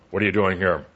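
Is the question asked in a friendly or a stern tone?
stern. The question is asked in a harsh, stern tone. A suspicious, intimidating interrogation. "it's a little tough"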